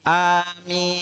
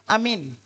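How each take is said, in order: First: The vowel after the m lasts two beats. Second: The vowels are all short. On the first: The speaker calls it right. "minnya dua harokat" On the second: The speaker calls it wrong. "Yang pertama lapasnya amin"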